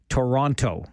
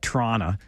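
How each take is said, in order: First: Every T sound is pronounced crisply and emphatically. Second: The T sounds are softened and run together. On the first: This is how an outsider says it. "when you are very emphatic about the T's" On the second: This is how a local says it. "I like to call it Toronto"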